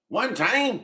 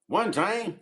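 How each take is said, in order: First: It is said with strong, high energy. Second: It is said with weak, low energy. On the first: The speaker calls it right. "there we go. That's the energy" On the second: The speaker calls it wrong. "yeah, that was kind of weak. I don't like that"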